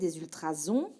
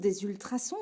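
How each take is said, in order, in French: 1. La consonne du milieu est un z bourdonnant. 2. La consonne du milieu est un s sifflant.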